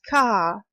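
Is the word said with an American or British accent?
British. The final r is dropped for a schwa. "is pronounced as car in Britain"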